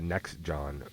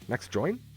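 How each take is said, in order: First: The second word sounds like John. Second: The second word sounds like Join. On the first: The speaker calls it wrong. "I pronounced it Next John earlier" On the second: The speaker calls it right. "Next join. Yep"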